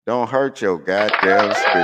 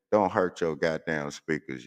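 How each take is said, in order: First: "Don't hurt your goddamn speakers" said louder with a punch on "hurt"; louder repeat. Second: Said in the usual way. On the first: Real, not acted. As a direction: hit it again louder as a warning. Warning listeners about speakers.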